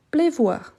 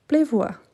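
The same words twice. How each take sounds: First: Said in the usual way. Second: Pleuvoir said clearly with a falling tune; model of pleuvoir. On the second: Shown as a demonstration. Teacher pronounces Pleuvoir for the student. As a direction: repeat Pleuvoir slowly for learners. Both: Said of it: "Parfait, c'est ça".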